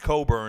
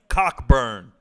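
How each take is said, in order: First: The middle k sound is silent. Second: The middle k sound is clearly pronounced. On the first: The speaker calls it wrong. "It's also not pronounced Coburn" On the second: The speaker calls it right. "It's pronounced Cockburn"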